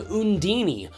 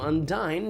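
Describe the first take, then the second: First: It ends with an extra ee sound. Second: It sounds almost like the word undying. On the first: The speaker calls it wrong. "you pronounce the character's name Undini" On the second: The speaker calls it right. "it's supposed to sound like undying"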